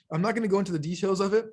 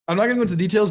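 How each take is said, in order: First: Talking through hiccups; hiccuping mid-sentence. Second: Said in the usual way. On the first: Real, not acted. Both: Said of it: "like, hiccups slash burping".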